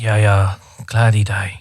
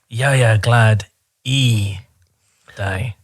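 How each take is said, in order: First: The 'i' sound gets no special stress. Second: The 'i' sound is strongly stressed.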